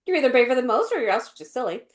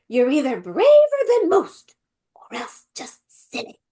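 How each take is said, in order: First: Quick, throwaway delivery; moved past it. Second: High, loud start dropping to a whisper; hammed-up grandma, hushed on the last words; funny grandma. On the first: Retold or imitated. Imitating the British Missus Beaver, moving quickly past it. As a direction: rattle it off without emphasis. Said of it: "they just moved past it". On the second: Imitating Missus Beaver on meeting Aslan, funny grandma. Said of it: "I heard my grandma in that".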